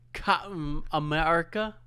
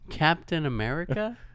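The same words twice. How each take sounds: First: It is said in the speaker's usual non-American accent. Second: It is said in an American accent.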